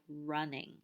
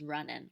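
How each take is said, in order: First: The word ends with a velar -ing sound. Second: The word ends with an alveolar -in sound. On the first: "word final ing" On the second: "in forms"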